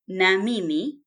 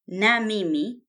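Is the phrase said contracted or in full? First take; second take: full; full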